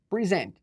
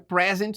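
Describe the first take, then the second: First: The stress is on the second syllable. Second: The stress is on the first syllable. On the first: It is the verb. "Uh, verbo" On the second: It is the noun. "Não é present"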